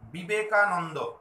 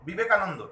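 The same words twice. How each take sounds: First: The word is said slowly with syllables separated. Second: The word is said quickly in one run. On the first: The syllable divisions can be heard. The speaker calls it right. "খুব আস্তে আস্তে বলি" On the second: The syllable divisions cannot be heard. The speaker calls it wrong. "তাড়াহুড়ো তাড়াতাড়ি করে বললে আমরা বুঝতে পারবো না"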